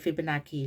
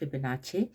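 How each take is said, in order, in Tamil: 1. நடுவில் உள்ள மெய்யெழுத்து கடினமான k ஒலி. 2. நடுவில் உள்ள மெய்யெழுத்து ch ஒலி. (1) "அது ஃபிபனாக்கி இல்லை" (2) "அது ஃபிபனாச்சி"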